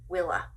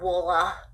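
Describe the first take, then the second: First: The first vowel sounds like 'ih'. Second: The first vowel sounds like 'ah'. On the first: The speaker calls it right. "W I L L A" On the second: The speaker calls it wrong. "It's not Wolla"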